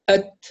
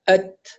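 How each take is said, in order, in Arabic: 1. تنطلق التاء الأخيرة بنفس خفيف ونظيف. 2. تنطلق التاء الأخيرة بنفس خفيف ونظيف.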